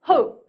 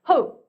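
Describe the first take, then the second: No difference in how they are said.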